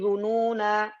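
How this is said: The reading stops after the word. "kalau berhenti"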